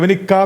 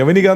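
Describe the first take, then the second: First: The k sound is held long, doubled. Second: The k sound is short, said once. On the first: The speaker calls it wrong. "ഇനി ഒരു കെ കൂട്ടിയിട്ട് എന്ത് ശബ്ദം?" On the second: The speaker calls it right. "യവനിക എന്നല്ലേ വിളിക്കുന്നത്"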